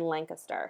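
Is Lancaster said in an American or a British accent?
American. It is said with an American pronunciation. "I'm using the Pennsylvania inflection"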